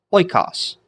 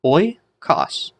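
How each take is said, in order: First: "Oikos" as one word, OI-kos, higher; joined-up pronunciation. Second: "Oikos" split into oi and kos, higher; syllable by syllable. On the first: Teacher repeats the Greek word whole, "Oikos" as OI-kos. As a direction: run "Oikos" together with no H, starting high. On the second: Teacher sounds out the Greek word for students, "Oikos" in separate syllables. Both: Shown as a demonstration. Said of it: "how are we gonna pronounce it?".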